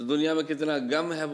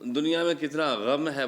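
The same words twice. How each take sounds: First: Gham starts with a plain hard g sound. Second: Gham starts with a throaty fricative sound. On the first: The meaning gets changed. The speaker calls it wrong. "बोलेंगे तो फिर विद्वान लोग अर्थ" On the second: How much sorrow there is in the world. The speaker calls it right. "बोलना है"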